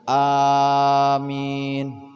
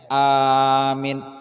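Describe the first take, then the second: First: Both vowels are long. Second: The first vowel is long, the second short. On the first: It asks that the prayer be answered. "awalnya panjang, ... panjang akhirnya" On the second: It means one who gives safety. "Panjang awalnya, pendek akhirnya"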